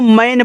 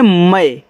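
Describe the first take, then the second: First: The word ends with a clear n consonant. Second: The vowel is nasalized with no final n. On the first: The speaker calls it wrong. "काफ़ी student इसको मैन पढ़ देते हैं जो कि गलत है" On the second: The speaker calls it right. "देखो इसे पढ़ते हैं मैं"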